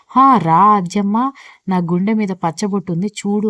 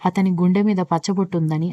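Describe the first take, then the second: First: Slow, drawn-out mock call of the hero. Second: Said in the usual way. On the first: Sandhya teasing Aadya, imitating the hero calling out slowly. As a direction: tease her by hamming up a hero calling out. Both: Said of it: "అని అరుచుకుంటూ తిరుగుతాడు అనుకున్నావా".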